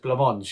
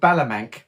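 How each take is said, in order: First: The name is said the French way. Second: The name is read as it is spelled. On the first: The speaker calls it right. "I didn't realise it was Blancmange because it doesn't read how it's spelled" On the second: The speaker calls it wrong. "I always thought they were called Balamanque by the way it's written"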